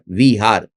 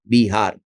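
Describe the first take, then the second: First: The word begins with a v sound. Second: The word begins with a b sound. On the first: This is the older name of the area. "वो होता था विहार" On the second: This is the name the area is called today. "फिर हो गया बिहार"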